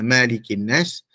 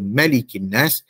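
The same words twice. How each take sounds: First: The first vowel is said long. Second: The first vowel is said short. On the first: It means the one who owns people. "Tetapi uh, kalau dibaca Malikin Nas" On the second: It means holding kingship and power over people. "baris yang tidak bermad, iaitu mim tu uh, baris atas saja"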